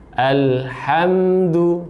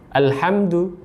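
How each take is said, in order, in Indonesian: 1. Huruf m ditahan dengan sedikit aliran suara. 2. Huruf m dipotong pendek tanpa aliran suara. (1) "sama mim juga ada tawassudnya" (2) "Kalau alhamdu ya, tawassudnya tidak ada"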